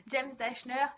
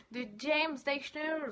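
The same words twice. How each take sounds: First: Said in the usual way. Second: James Dashner said with an English lilt, slowed; name the author the English way; English accent. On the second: Real, not acted. (prononcé à l'anglaise, James Dashner) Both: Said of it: "Faut que j'arrête avec mon accent".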